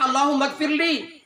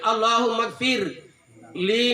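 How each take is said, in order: First: It runs straight on with no pause before li. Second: It has a short pause before li. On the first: It asks forgiveness for the speaker himself. The speaker calls it wrong. "Jangan dibaca Allahumma gfirli" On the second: It asks forgiveness for the deceased person. The speaker calls it right. "Jadi harus koma di situ"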